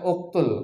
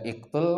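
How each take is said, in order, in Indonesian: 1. Kata ini diawali dengan vokal u. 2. Kata ini diawali dengan vokal i. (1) "Yang benar uktul" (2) "Dibaca iktul kah?"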